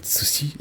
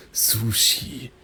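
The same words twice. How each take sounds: First: "sushi" quick, both syllables equally short; "sushi" with no lengthened vowel; short even syllables. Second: "sushi" slow, with a long "su"; German-style "sushi", lengthened and leaning; drawn-out German rhythm. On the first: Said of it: "It's not sushi". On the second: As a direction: stretch the first vowel of "sushi". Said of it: "it's sushi". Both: Shown as a demonstration.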